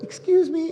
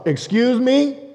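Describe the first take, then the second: First: It is said in a gentle, coaxing tone. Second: It is said in an indignant, sassy tone.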